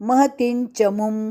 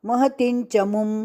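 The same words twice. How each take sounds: Both takes have the same delivery.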